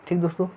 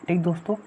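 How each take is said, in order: Both takes have the same delivery.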